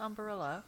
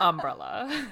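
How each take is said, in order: First: "umbrella" as um-buh-RELLA, four syllables; extra-syllable umbrella. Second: "umbrella" as um-BRELLA, b and r joined; corrected three-syllable umbrella. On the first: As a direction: try out "umbrella" with a vowel after the b. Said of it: "that's incorrect". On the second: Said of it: "that's incorrect. It's". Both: Shown as a demonstration.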